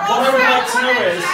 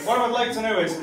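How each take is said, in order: First: I punched high, loud and fast; stress on I. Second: What leaned on, near usual level; stress on what. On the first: Comic asking the crowd, stress on I. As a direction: hit the word I hard, rushed. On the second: Comic restarting the question, stress on what. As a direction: restart calmer, leaning on what. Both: Shown as a demonstration.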